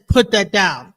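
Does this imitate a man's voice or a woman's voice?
man. It is said in a deeper, firmer man's voice. The child obeys the command at once. "But then the man says"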